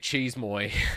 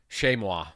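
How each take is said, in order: First: The first syllable sounds like 'cheese'. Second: The first syllable sounds like 'shay'. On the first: The speaker calls it wrong. "I always say cheese moy. Such an American" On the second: The speaker calls it right. "thank you. I knew I was saying it wrong at least"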